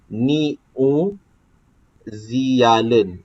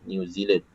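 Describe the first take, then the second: First: It is sounded letter by letter as Malay spelling. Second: It is sounded like the English name. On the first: The speaker calls it wrong. "Kita tak sebut New Zealand" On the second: The speaker calls it right. "kita akan sebut New Zealand"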